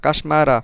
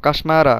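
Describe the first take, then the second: No difference in how they are said.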